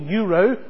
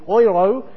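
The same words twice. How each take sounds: First: It is pronounced the usual English way. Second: It is pronounced the continental European way.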